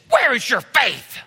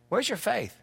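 First: It is said in an angry, harsh tone. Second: It is said in a calm, gentle tone.

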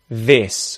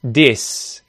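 First: The word begins with a voiced th sound. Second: The word begins with a hard d sound. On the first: The speaker calls it right. "instead of this" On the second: The speaker calls it wrong. "if you mispronounce this as a stop consonant, d"

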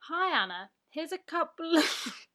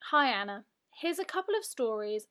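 First: It is said in a very posh voice. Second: It is said in a plain, normal voice.

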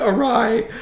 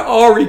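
First: The word sounds like 'awry'. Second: The word sounds like 'Ari'. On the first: This is the version other people say. "when I heard someone say something's gone awry" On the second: This is the speaker's own private version of the word. "my word is that something's gone Ari"

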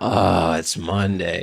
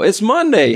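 First: It is said in a glum, deflated tone. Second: It is said in an excited, energetic tone.

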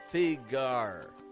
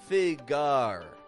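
First: The second syllable is as strong as the first. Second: The same.

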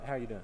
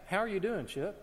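First: It is asked casually, as a passing remark. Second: It is asked sincerely, with real interest.

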